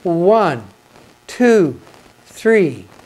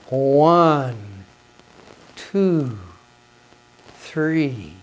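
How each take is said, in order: First: The counting is fairly fast. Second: The counting is much slower.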